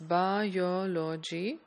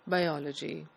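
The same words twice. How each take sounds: First: All syllables carry about equal stress. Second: One syllable is stressed more than the others. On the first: "each of these syllables will be equally stressed" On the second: "the correct pronunciation should be biology"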